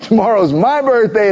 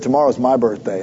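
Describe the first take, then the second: First: "my" said higher and leaned on; stress on MY. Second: Said in the usual way. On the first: Retold or imitated. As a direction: hit "my" to claim the birthday. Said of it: "It's not yours". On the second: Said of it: "He said".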